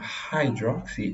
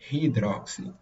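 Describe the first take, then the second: First: The first vowel is a gliding diphthong. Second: The first vowel is a single plain vowel. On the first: The speaker calls it right. "o ditongo, que é um hydroxy" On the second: The speaker calls it wrong. "ele transforma numa simples vogal"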